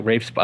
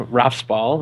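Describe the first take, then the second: First: Rafe said to rhyme with "safe"; alternative pronunciation. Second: Rafe said to rhyme with "laugh"; unsure pronunciation. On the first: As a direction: say Rafe with a long "ay" vowel. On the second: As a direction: say Rafe with an "ah" vowel, like "Raff". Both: Shown as a demonstration. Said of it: "I don't even pronounce his name".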